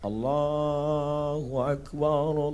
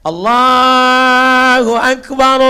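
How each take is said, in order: First: The phrase is said quietly and gently. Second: The phrase is said loudly and forcefully. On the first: The speaker calls it right. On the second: The speaker calls it wrong. "Jangan kuat macam itu"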